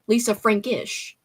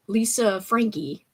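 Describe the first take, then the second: First: Slow "Lisa Frankish" ending in a clear ish; corrected name. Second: Slow, unsure "Lisa Frankie" with a plain ee at the end; wrong name. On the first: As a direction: fix it and land on "Lisa Frankish". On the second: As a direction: drag out "Lisa Frankie" as a first try. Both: Real, not acted.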